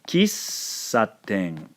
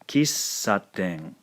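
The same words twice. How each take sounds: First: The s sound is held long. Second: The s sound is held long.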